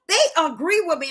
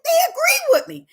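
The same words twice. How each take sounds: First: Said in the usual way. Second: High laughing burst on they agree; amused laugh as the men agree with her. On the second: Real, not acted. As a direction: laugh it out in delight.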